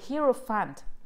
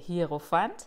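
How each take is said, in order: First: The word is said with an English-like pronunciation. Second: The word is said with a German pronunciation. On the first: "I don't know how to say this correctly in English" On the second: "In German, we would say"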